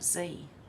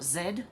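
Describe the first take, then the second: First: It is said the American way, as zee. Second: It is said the Australian way, as zed.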